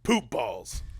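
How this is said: It is said as an angry declaration.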